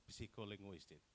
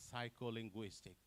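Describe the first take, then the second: First: Psycholinguistic starting p-see-ko; wrong, sounded p. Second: Psycholinguistic starting sigh-ko, no p; correct silent p. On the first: Retold or imitated. Presenter shows what not to say, sounded p. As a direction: put a p before the s in psycholinguistic. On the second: Shown as a demonstration. Presenter models correct word, silent p. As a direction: begin psycholinguistic on a plain s, sigh. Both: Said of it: "not psycholinguistic".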